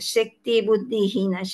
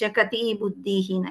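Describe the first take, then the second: First: The first word is said as two syllables, shak-ti. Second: The first word is said as three syllables, sha-ka-ti.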